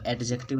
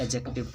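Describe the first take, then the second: First: First "एडजेक्टिव" with the d sounded; wrong pronunciation. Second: "एडजेक्टिव" with silent d; correct pronunciation. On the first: Teacher showing what not to say, "एडजेक्टिव" with audible d. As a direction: say "एडजेक्टिव" as ed-jective. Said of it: "इसको एडजेक्टिव नहीं पढ़ के". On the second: Teacher correcting students, "एडजेक्टिव" without the d sound. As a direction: say "एडजेक्टिव" as e-jective. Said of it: "एडजेक्टिव पढ़ते हैं". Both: Shown as a demonstration.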